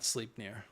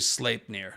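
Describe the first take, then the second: First: The first syllable sounds like the word 'sleep'. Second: The first syllable does not sound like 'sleep'. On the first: The speaker calls it wrong. "not Sleepnir" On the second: The speaker calls it right. "It's not sleep. It's actually Sleipnir"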